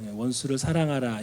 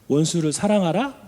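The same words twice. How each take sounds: First: It is said as a plain, flat command. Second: It is said as a doubtful, questioning phrase. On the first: It is a plain command to love enemies. The speaker calls it wrong. "이게 아니라" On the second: It doubts whether loving enemies is possible. The speaker calls it right. "마지막에 물음표가 있어요"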